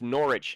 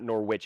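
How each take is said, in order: First: It is pronounced the British way. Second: It is pronounced the American way. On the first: The speaker calls it right. "It's Norwich" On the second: The speaker calls it wrong. "not Norwich"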